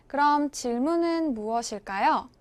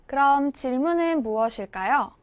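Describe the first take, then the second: No difference in how they are said.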